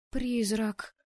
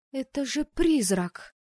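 First: Startled squeak. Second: Higher, louder, slow alarmed cry; frightened cry. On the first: Anna squeaks on seeing the ghost. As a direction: squeak it like a choked mouse. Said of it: "пискнула я, словно придушенная мышь". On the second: Anna cries out, frightened, on seeing a ghost. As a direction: let the fright grow as it sinks in. Woman realises it's a ghost. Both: Acted.

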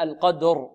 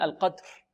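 First: القدر slow, with a fully sounded ر; correct, ringing final r in القدر; voiced final r. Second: القدر trailing into a breath for the ر; student's devoiced r. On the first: Shown as a demonstration. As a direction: give the ر of القدر its voice. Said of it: "فلا بد من إعطائها جهرها". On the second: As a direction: drop the voice on the ر of القدر. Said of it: "أما بعض الطلاب يقولون القدر".

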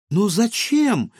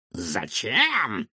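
First: High, slow, puzzled question; a girl honestly baffled; surprised. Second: Taken aback, pondering. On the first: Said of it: "удивилась Илона". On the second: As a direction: caught off guard, thinking it over. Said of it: "Доктор осёкся и задумался". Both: Acted.

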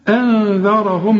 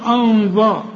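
First: "أنذرهم" slowly, thin hamza and held nasal n; slow model "أنذرهم", vowels kept thin; correct light hamza. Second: "أنذر" with dark, thick a and heavy dhal; "أنذر" said too heavy; wrong heavy letters. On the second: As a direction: mistakenly darken "أنذر" toward "onzor". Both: Shown as a demonstration. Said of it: "ما تقولش أنذر".

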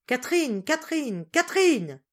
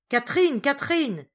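First: Small piercing voice calling, high and loud; high calls rising in urgency. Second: Loud, high shout of a name; full-voiced call, louder from the first word. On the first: Breathless Mathilde calls the missing servant, high piercing cries. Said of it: "mademoiselle Mathilde appela". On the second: Solange takes over calling the missing servant, shouting loudly. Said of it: "cria mademoiselle Solange". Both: A narrator's reading.

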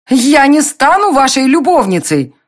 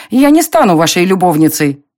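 First: High, loud furious cry; angry shout. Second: Said in the usual way. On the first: A narrator's reading. Heroine refuses to be Darren's mistress, angry shout. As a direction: hurl it at him in outrage. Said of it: "закричала гневно".

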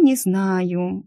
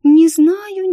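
First: Said in the usual way. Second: Very high, loud, whiny-pitched hesitation; drawn-out doubt. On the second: Acted. Picky client doubting a perfect candidate, high-pitched hedging.

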